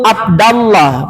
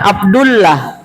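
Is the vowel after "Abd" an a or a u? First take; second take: a; u. First: The vowel after abd is a. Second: The vowel after abd is u. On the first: The name is the object of the verb. The speaker calls it right. "Saya ketemu Abdallah, bukan Abdullah" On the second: The name is in the nominative case. The speaker calls it wrong. "Karena kalau abdu marfu"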